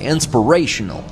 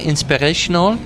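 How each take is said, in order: First: It is said with an American accent. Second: It is said with a put-on French accent. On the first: "without the French accent, ... with an American accent" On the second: "the French accent or so-called French accent"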